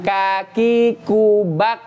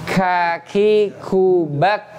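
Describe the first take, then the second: First: The k is said without a breathy release. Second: The k is said with a breathy release. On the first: The speaker calls it wrong. "tidak kaki kubak, bukan itu" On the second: The speaker calls it right. "Mempunyai sifat namanya ham, hamas"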